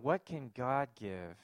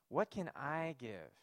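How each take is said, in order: First: Slow, with the weight on "God"; stress on God. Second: Slow, with the weight on "I" in the middle; stress on I. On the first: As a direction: lean on "God" in contrast. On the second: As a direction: lean on "I", drawing the question out. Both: Shown as a demonstration. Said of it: "The emphasis now becomes".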